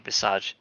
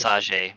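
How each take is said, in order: First: Visage said as vee-SAHZH; French pronunciation. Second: Visage said as vee-sah-ZHAY; mock-French visage, ending in "zhay"; fancy mispronunciation. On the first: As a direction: say visage with a soft zh and no final vowel. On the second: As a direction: add a fancy "ay" to the end of visage. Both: Shown as a demonstration. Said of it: "Visage makes it sound more fancy".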